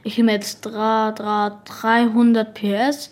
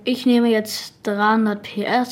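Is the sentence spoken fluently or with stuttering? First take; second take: stuttering; fluently. First: The sentence is spoken with deliberate stuttering. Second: The sentence is spoken smoothly without any stuttering. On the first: The speaker calls it right. "immer irgendwas stottern" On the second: The speaker calls it wrong. "man sagt nicht so"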